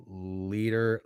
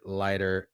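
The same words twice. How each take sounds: First: "Leader" said with a long ee, like the word leader. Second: "Leiter" said with a long i, like lighter. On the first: Host trying the pitcher's surname, "Leader" with long ee. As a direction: say "Leader" with first syllable "lee". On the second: Host correcting the pitcher's surname, "Leiter" rhyming with lighter. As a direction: say "Leiter" with first syllable "lie". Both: Shown as a demonstration. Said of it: "Jack Leiter".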